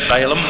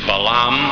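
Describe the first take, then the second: First: The name is said the common English way. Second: The name is said the Hebrew way. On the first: The speaker calls it wrong. "Most people I've ever heard in New Zealand and even in the States, they say Balaam" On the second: The speaker calls it right. "his name really is Balaam"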